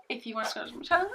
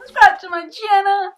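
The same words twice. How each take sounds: First: Said in the usual way. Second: Much higher and louder, yelled out; shouted plug. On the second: Shown as a demonstration. Urging viewers to subscribe, a loud shouted plug. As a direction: belt the channel plug.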